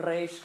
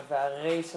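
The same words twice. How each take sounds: First: רייש with the R trilled on the tongue; rolled resh. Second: והרייש with today's Israeli back-of-the-mouth R; modern resh. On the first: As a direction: roll the first sound of רייש with the tongue tip. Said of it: "מתגלגלת בלשון לגמרי". (רייש בר' מתגלגלת בלשון) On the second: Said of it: "כמו שאנחנו הוגים היום". (והרייש בר' ישראלית של היום) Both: Shown as a demonstration.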